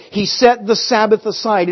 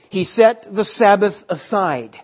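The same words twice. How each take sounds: First: "set" punched, the rest kept level; stress on set. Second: Sabbath leaned on as the key word; stress on Sabbath. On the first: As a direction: push hard on "set" as the key word. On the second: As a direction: hit "Sabbath", keep "set" light. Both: Shown as a demonstration. Restates verse, shifting the stress.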